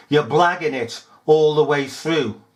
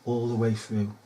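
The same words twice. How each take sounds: First: Said in the usual way. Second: ALL THE WAY THROUGH low and soft; quiet echo. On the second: Acted. Accusing officials of blagging, a hushed echo. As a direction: repeat it quietly, as an afterthought.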